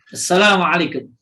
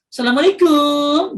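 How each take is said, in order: First: The final syllable kum is kept short. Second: The final syllable kum is drawn out long. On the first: The speaker calls it right. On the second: The speaker calls it wrong.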